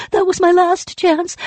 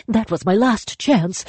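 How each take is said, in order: First: Very high loud wail; despairing wail. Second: High, falling despair. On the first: Spirit wails over its lost chance, very high and loud. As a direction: cry it out at full pitch. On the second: Spirit mourns its lost chance, high. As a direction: say it as the end of hope. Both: Acted.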